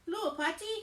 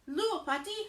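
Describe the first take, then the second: The two takes are said the same way.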